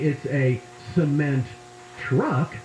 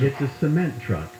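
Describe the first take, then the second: First: The stress falls on truck. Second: The stress falls on cement.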